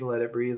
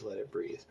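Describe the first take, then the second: First: Said in the usual way. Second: "let it breathe" said softly, trailing off; fading mantra. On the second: Shown as a demonstration. Artist repeating his plan to himself, fading softly. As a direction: let "let it breathe" fade out under your breath.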